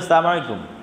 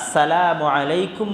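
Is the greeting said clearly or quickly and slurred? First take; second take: quickly; clearly. First: It is said quickly, with sounds slurred together. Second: It is said clearly, with every syllable pronounced. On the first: It wishes death on the listener. The speaker calls it wrong. "এমন করে দ্রুত বলে ফেলে" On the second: It wishes peace on the listener. The speaker calls it right. "মানে তোমার উপর শান্তি বর্ষিত হোক"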